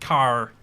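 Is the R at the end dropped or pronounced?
pronounced. The final R sound is strongly pronounced. "You gotta pronounce the R like it's the end of your life"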